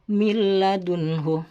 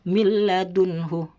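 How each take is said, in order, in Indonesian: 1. Bunyi n menyatu menjadi bunyi l yang bertasydid. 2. Bunyi n menyatu menjadi bunyi l yang bertasydid.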